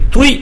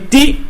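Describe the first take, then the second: First: The syllable ends in a 'wee' sound. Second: The syllable ends in a plain 'ee' vowel. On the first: The speaker calls it right. "Et tui" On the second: The speaker calls it wrong. "ben c'est le T, troisième lettre"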